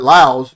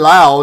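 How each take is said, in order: First: The word ends with an S sound. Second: The word ends without an S sound. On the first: The speaker calls it wrong. "not Laos" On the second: The speaker calls it right. "I say Lao"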